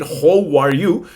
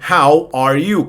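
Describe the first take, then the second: First: Slow "How are you?" with "How" said as "hoe"; wrong vowel. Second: Slow, separate "How are you?" with "How" as "hah-oo"; correct vowel. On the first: Teacher jokes about a learner mistake, wrong vowel. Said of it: "no vayan a decir". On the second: Teacher models the greeting for learners, correct vowel. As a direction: open "How" like Spanish "jau", said slowly. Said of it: "pues sí, digan". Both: Shown as a demonstration.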